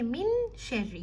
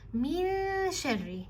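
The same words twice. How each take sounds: First: The n is pronounced fully and clearly. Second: The n fades lightly into the sh. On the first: The speaker calls it wrong. "You don't say" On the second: The speaker calls it right. "the noon here merges with the sheen. it becomes lighter"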